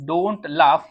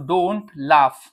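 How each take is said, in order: First: Said in the usual way. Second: Drawn-out don't laugh; slow model phrase. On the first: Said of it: "repeat at normal pace". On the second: Shown as a demonstration. Teacher modelling don't laugh slowly for students. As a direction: say it slowly for learners. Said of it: "teacher models slow phrase".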